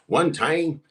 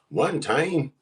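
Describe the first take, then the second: First: The voice sounds clearer and less rough. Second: The voice sounds rough and raspy. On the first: The speaker calls it right. "That's a little better" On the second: The speaker calls it wrong. "that sounded raspy. That was in my jaw rule voice"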